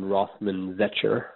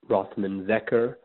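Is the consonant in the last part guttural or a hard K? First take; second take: guttural; hard K. First: The last part has a throaty guttural sound. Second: The last part has a hard K sound. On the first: "as in the Hebrew letter Chaf" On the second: "there's a hard K sound in the final part of my last name"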